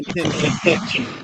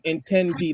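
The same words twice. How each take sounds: First: The t is said like a ch sound. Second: The t is said as a plain t. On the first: "they pronounce their T's as chi" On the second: "they don't say um, intendí"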